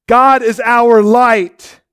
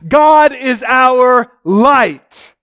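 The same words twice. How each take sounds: First: God is our light repeated slowly, less force. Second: God is our light, each word slow and weighty; slow emphatic proclamation. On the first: Preacher echoing his words to the congregation, gentler. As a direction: let it settle, slow and gentler. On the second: Preacher declaring God is our light, slow and emphatic. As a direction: proclaim it slowly, leaning on God. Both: Acted.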